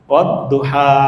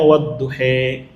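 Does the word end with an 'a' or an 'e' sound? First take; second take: a; e. First: The final vowel is an open 'a'. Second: The final vowel is bent towards 'e'.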